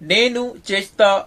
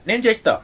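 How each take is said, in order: First: The first word keeps both syllables, nenu. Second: The first word is clipped to one syllable, nen. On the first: This is the careful full form. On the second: This is how it is said in everyday speech.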